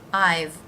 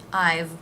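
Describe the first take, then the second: First: It is one syllable ending in v. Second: The same.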